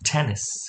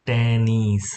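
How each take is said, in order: First: The first t is aspirated, with a puff of air. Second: The first t is plain, without a puff of air. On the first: The speaker calls it right. "ટનો ઉચ્ચાર થોડો ઠ જેવો કરવાનો છે" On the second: The speaker calls it wrong. "ટેનિસ ટેનિસ એમ નહીં વાંચતા"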